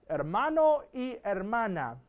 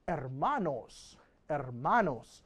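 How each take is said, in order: First: Said in the usual way. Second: Slow, "Hermanos" drawn out, stressing the -nos ending; elegant plural. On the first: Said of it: "there's a more elegant way". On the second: Shown as a demonstration. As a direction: say "Hermanos" slowly and neatly as one plural. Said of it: "a more elegant way".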